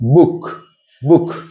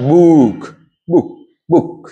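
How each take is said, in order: First: The vowel is short and clipped. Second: The vowel is drawn out long. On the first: The speaker calls it right. "Short করে বলতে হবে" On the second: The speaker calls it wrong. "Not"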